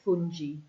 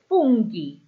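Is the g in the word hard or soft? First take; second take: soft; hard. First: The g is soft, like the g in gem. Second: The g is hard, like the g in go. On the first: The speaker calls it wrong. "if we try to have a G followed by an I, it would make it fungi" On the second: The speaker calls it right. "we've added the H in to make it fungi"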